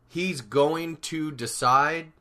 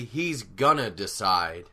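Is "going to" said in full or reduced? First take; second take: full; reduced. First: "Going to" is said in full. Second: "Going to" is reduced to "gonna". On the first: "instead of saying something like" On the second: "we can shorten it to say"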